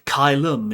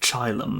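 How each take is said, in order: First: The word begins with a hard K sound. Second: The word begins with a soft CH sound.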